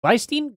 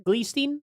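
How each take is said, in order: First: "Gleistein" with an EYE vowel, pitched high; GLY pronunciation. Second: "Gleestein" with a long EE, rising high; GLEE pronunciation. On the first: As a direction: test "Gleistein" as GLY-steen. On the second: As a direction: test "Gleestein" as GLEE-steen, questioning. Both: Shown as a demonstration. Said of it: "Or is it Gleistein?".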